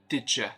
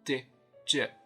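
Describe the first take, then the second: First: Both words are weakened and run together. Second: Both words are said fully and separately. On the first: The speaker calls it right. "but did you?" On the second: The speaker calls it wrong. "It's not did you"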